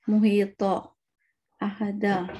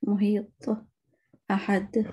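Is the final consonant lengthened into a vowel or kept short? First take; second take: lengthened; short. First: The final consonant is stretched into a vowel. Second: The final consonant ends in a short bounce. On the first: The speaker calls it wrong. "ये अल्फाज लंबे हो गए और ये फिर ये जबर पेश वाली आवाज आती है जो कि गलत है" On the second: The speaker calls it right. "सिर्फ छोटी सी होती है कलकले की आवाज"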